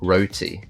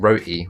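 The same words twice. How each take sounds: First: The T is pronounced fully and heavily. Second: The T is replaced by a glottal stop. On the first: "heavily pronounce, pronouncing the T there" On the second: "with the glottal stop"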